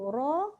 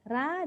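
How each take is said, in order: First: The r sounds heavy, with a dark vowel. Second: The r sounds light, with a bright vowel. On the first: The speaker calls it right. "Ro, dia ternaik" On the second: The speaker calls it wrong. "Ra, dia kat bawah"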